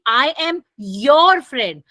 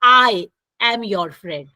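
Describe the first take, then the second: First: The stress falls on the word your. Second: The stress falls on the word I. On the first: I am your friend and nobody else's. "मेरा stress किस पर है? योर पे है" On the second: It is I, and not someone else, who is the friend. "मैं किस पे ज़ोर दे रही हूँ? आई पे"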